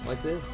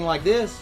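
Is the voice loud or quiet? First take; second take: quiet; loud. First: The voice is lower and softer. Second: The voice is loud and forceful. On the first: The speaker calls it right. "lower your voice" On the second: The speaker calls it wrong. "You are being loud"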